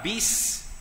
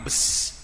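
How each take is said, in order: First: The vowel is a close 'ee'-like sound. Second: The vowel is an open 'eh'-like sound. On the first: The speaker calls it right. "bis bagi bawah" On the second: The speaker calls it wrong. "bukan bes"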